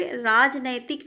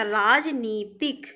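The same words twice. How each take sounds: First: राजनैतिक with ai after the n; wrong form राजनैतिक. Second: राजनीतिक slowly, with a long nee; correct form राजनीतिक. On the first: Teacher rejects a wrong form, nai in राजनैतिक. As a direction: say राजनैतिक as raaj-nai-tik. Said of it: "नहीं होता". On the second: Teacher corrects students, slow long nee in राजनीतिक. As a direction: stretch राजनीतिक as raaj-nee-tik. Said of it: "राजनैतिक नहीं होता". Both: Shown as a demonstration.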